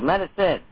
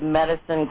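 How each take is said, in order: First: The stress is on the last syllable. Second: The stress is on the first syllable.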